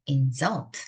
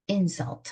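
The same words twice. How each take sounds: First: The stress is on the second syllable. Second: The stress is on the first syllable. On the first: It is the verb meaning to insult. "모욕을 주다라는 동사가 되죠" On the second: It is the noun meaning an insult. "모욕이라는 명사가 되고"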